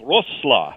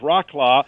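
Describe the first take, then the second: First: The name is not said like 'rock-law'. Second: The name is said like 'rock-law'. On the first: The speaker calls it right. "I believe it's Wroclaw" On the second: The speaker calls it wrong. "It looks like it should be pronounced Rocklaw"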